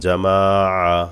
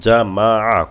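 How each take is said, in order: First: The vowels are drawn out and lengthened. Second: The vowels are short, with no lengthening. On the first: The speaker calls it wrong. "এভাবে বললে কিন্তু ভুল হবে" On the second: The speaker calls it right. "কোনো টান হবে না"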